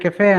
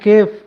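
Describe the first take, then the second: First: It is said as two syllables, ke-fay. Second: It is said as one syllable, kef. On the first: This is how it is said after getting educated. "ఇప్పుడు PhD చేసి ఇంగ్లీష్లో అంటున్నాడు" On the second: This is how it was said as a child. "చిన్నప్పుడు"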